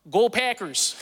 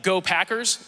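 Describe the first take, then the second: First: Higher, exaggerated Wisconsin accent; faked Northern accent. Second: Said in the usual way. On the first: Shown as a demonstration. New kid cheering the team to fit in, faked Northern accent. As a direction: lay on thick Northern vowels. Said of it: "I would say". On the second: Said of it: "instead of saying, like, "Go Packers," like a human being".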